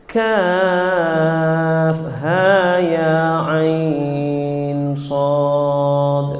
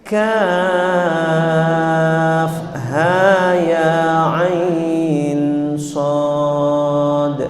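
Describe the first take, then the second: Both takes have the same delivery.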